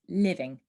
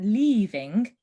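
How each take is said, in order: First: The first vowel is short. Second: The first vowel is long. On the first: The speaker calls it right. "make the vowel sound really short" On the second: The speaker calls it wrong. "So it's not leaving"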